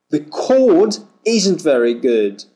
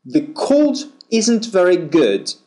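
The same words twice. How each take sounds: First: "cord" with a long aw vowel, no r. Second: "cold" with the oh glide and a dark l; ol sound in cold. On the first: Teacher pairing "cord" with cold for students, long aw. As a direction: hold the aw in "cord". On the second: Teacher pairing "cold" with cord for students, oh glide. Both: Shown as a demonstration. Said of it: "Feel the difference".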